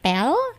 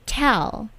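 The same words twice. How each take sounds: First: The T has little or no puff of air. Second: The T has a strong puff of air. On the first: The speaker calls it wrong. "Bukan tell" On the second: The speaker calls it right. "Tell with plosive on T, jadi di T-nya itu plosive"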